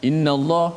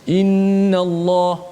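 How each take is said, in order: First: The nasal hum on the n is cut short. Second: The nasal hum on the n is held long. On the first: The speaker calls it wrong. "jangan kita baca innallaha la, innallah, ha, mana kita tidak mencukupkan kadar uh, gunnah itu" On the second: The speaker calls it right. "pun kita kena jaga gunnah"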